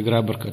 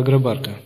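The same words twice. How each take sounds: First: "Грабарка" stressed on the first syllable; alternative stress. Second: "Грабарка" stressed on the second syllable; stress variant. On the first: Priest offering the other pronunciation, "Грабарка" with first-syllable stress. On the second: Priest naming a holy mountain, "Грабарка" with second-syllable stress. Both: Shown as a demonstration. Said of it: "там по-разному про-, произносят".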